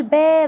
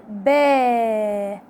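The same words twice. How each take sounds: First: با said short with a quick fatha; با as a short fatha, no stretch; short vowel. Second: با stretched very slowly, alif held; slow drawn-out با with a long alif. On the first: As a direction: clip با off short. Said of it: "هنا كنت بقول با بس". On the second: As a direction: pull با out long like a rubber band. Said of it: "بمسك أستك وبشده قوي". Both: Shown as a demonstration.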